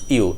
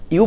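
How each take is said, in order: First: "you" with a full long "oo"; full form. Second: "you" reduced to a short "yuh"; short form. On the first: Teacher shows the form not to use, full. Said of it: "not you in a sentence". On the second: Teacher shows what the word becomes, shortened. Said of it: "you becomes you". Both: Shown as a demonstration.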